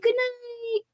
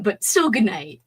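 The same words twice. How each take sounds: First: High, sing-song "good night". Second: Said in the usual way. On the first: Shown as a demonstration. Saying good night to absent friends in a high sing-song. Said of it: "I'm gonna say good night". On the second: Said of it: "I know you're probably gone".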